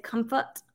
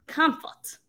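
First: Said in the usual way. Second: A light Southern drawl on Comfort, drawn out and higher. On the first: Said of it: "do you see where I said comfort". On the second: Shown as a demonstration. Host sounding out her misspelled word in a mild Southern drawl. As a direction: Comfort said with a lazy Texas drawl, half joking. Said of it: "the southern drawl that's coming out of me".

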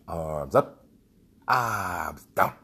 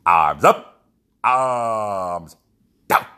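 First: Loud calls to the group; shouted drill commands. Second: Very loud stretched commands; full-volume drill shout. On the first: Leader repeating the arm drill for the group, loud. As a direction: bark the arm drill out again. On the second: Leader shouting the arm drill across the whole field. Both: Retold or imitated.

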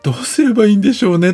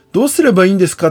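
First: High, quick, clueless reply; helpless shrug. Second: High, louder pleading question; anxious client. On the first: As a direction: shrug it off, at a loss. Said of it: "としか思わない自分". (途方に暮れた早口の返事) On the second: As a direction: ask in a worried plea. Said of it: "って聞かれて". (不安げに問いかける声) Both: Retold or imitated.

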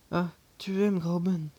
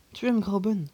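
First: Absent, automatic repeat of the question; mechanical repeat. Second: Loud, higher, menacing question; murderous tone. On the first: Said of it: "reprit-il machinalement". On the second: The uncle corners his nephew over Grauben, menacing. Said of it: "d'un véritable ton de tueur". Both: A narrator's reading.

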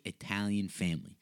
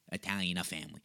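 First: Said in the usual way. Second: "Italian" with an extra "a" on the end; mock slip on ITALIAN. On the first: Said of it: "one take, folks". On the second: Shown as a demonstration. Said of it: "one take, folks, I'm telling you".

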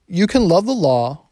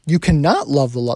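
First: Said in the usual way. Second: "cannot" said firmly, a bit louder; stress on cannot. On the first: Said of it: "that didn't sound right". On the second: Shown as a demonstration. Preacher corrects his misquote for the congregation, stressing "cannot". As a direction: lean into "cannot" to correct the slip.

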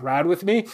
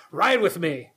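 First: "Ride with me" with a rising question tune. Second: "Ride with me" said flat, tune falling at the end; as a statement. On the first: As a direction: ask "Ride with me?" lightly, tune going up at the end. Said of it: "You have to say it as a question". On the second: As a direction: say "Ride with me." as a plain firm statement. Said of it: "or you go". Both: Shown as a demonstration.

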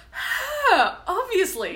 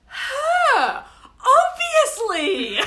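First: Lighter replay of the outburst. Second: High, loud and drawn out, hammed-up; exaggerated outburst. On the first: Retold or imitated. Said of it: "just Liam going". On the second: Friend Liam choosing his best friend, hammed-up and loud. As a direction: fling the answer out like it's obvious. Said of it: "And he goes".

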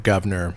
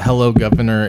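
First: "governor" with every syllable and final r sounded; fully pronounced "governor", no British dropped r; whole word pronounced. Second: Monotone. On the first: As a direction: say "governor" in full, American r at the end. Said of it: "you pronounce the word governor, the whole word". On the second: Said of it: "you say it monotone". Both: Shown as a demonstration.

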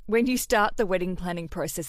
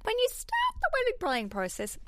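First: Said in the usual way. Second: Squeaky high voice. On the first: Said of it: "that's my normal voice". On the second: Shown as a demonstration. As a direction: pitch shoots way up, thin and squeaky. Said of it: "it's like it's a lie".

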